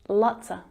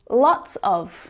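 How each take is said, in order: First: The word 'of' shrinks to a schwa. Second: The word 'of' is pronounced in full.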